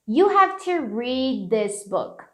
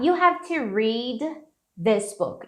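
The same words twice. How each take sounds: First: The d is softened and linked into 'this'. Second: The d is fully released before 'this'. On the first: "suavizarem esse read aqui e já emendar no this" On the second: "Explodiu o D"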